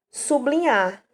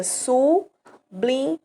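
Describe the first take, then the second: First: Said in the usual way. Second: "sublinhar" drawn out slowly as su-bli-nhar, keeping B L together; slow syllable split. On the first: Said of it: "Fica sublinhar". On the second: Shown as a demonstration. Teacher showing students how it separates, slowly. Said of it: "Em que o B L é um encontro consonantal".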